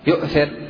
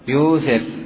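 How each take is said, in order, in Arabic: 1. تُنطق الهمزة في الكلمة. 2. تصير الهمزة حرف مد طويلاً. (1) "يجوز إبقاؤها همزة" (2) "ويجوز ماذا؟ إبدالها حرفا من جنس حركة ما قبلها"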